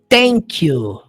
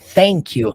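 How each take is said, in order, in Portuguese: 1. Começa com um som de T firme. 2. Começa com um som de TH suave. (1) "você pronunciar com som de T" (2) "com som de T H"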